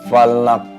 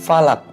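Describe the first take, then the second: First: The final k is released with a bounce. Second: The final k is clipped without an echo. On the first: The speaker calls it right. "karena ada hukum qalqalah" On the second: The speaker calls it wrong. "Bukan falak"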